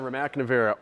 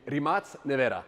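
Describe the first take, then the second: First: The name is said with an English pronunciation. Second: The name is said with a Croatian pronunciation. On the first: The speaker calls it wrong. "I pronounce it wrong" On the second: The speaker calls it right. "as they call it in Croatia"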